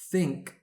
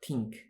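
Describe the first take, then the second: First: It starts with a TH sound. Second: It starts with a plain T sound. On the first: The speaker calls it right. "Think is not tink" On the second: The speaker calls it wrong. "is not tink"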